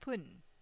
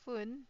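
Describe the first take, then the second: First: The word begins with a hard p sound. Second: The word begins with a soft f sound. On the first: "here it is pronounced as pun" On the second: "I put it here as fun"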